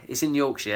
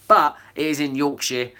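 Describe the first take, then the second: First: A quick, hammed-up Yorkshire "It's in Yorkshire"; deliberately terrible Yorkshire accent; mock Yorkshire accent. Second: Said in the usual way. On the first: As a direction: put on a bad Yorkshire accent for a laugh. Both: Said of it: "That's terrible Yorkshire accent".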